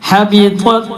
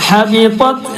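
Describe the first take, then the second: Both takes have the same delivery.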